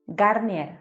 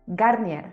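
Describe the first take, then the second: No difference in how they are said.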